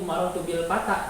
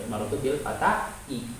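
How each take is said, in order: First: The last word ends without an added vowel. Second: The last word ends with an added 'i' vowel. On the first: The speaker calls it right. "Ini marotu bil patah" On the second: The speaker calls it wrong. "enggak dibaca"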